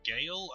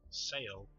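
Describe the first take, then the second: First: The word begins with a G sound. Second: The word begins with an S sound. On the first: "I'm guessing the S is silent" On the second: "or maybe the G is silent"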